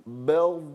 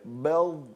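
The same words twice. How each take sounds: No difference in how they are said.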